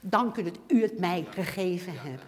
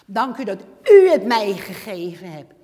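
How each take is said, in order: First: Quiet, lower "Dank u dat u het mij gegeven hebt"; soft grateful thanks. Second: Louder, laughing "Dank u dat u het mij gegeven hebt"; joyful loud thanks. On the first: Believer thanking God, quiet and tender. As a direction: murmur the thanks gently. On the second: Believer thanking God, joyful and loud with a laugh. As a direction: burst out in happy gratitude. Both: Shown as a demonstration. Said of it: "Hoor je wat ik zeg?".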